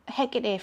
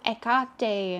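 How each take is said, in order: First: It is said in a plain English accent. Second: It is said in an exaggerated foreign-sounding accent.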